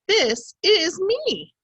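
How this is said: It is read with an excited, lively voice. The speaker calls it right. "this is what it should sound like"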